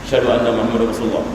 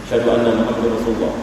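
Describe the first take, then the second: The two takes are said the same way.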